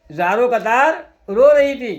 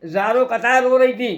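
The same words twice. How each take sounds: First: ज़ारो कतार drawn out slowly, then a pause and a loud रो; slow, loud stress on रो after a break at कतार; slow emphatic repeat. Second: Said in the usual way. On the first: A narrator's reading. Repeats the line for effect.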